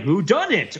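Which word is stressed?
done. The stress is on "done".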